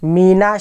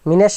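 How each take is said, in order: First: The vowel after the n sounds like 'a'. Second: The vowel after the n sounds like 'e'. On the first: The speaker calls it right. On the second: The speaker calls it wrong.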